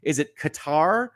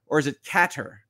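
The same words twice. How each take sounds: First: "Qatar" said as kuh-TAR; second-syllable stress. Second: "Qatar" said as CAT-er; first-syllable stress. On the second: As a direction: stress the start of "Qatar", short ending. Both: Shown as a demonstration. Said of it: "is it first syllable or second syllable".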